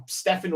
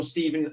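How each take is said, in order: First: Stephen said as "Steffen"; alternative name pronunciation. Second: Stephen said as "Steeven"; usual name pronunciation. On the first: Unsure how the player's name is said, Stephen as "Steffen". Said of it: "is it, uh, Stephen or Stephen?". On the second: Settling on the player's name, Stephen as "Steeven". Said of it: "I think it's Stephen McGee". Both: Shown as a demonstration.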